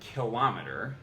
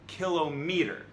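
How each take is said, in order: First: The stress is on the second syllable. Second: The stress is on the first syllable. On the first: The speaker calls it wrong. "What you thought was kilometer" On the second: The speaker calls it right. "is actually kilometer"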